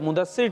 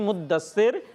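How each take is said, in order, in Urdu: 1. d کی آواز چھوٹی اور اکہری ہے۔ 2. d کی آواز کھینچی ہوئی اور دوہری ہے۔ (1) "تو مدثر ٹھیک نہیں ہے" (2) "دال پر بھی تجدید ہے ... مدثر ٹھیک ہے"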